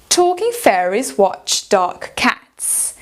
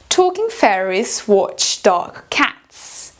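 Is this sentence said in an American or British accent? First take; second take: British; British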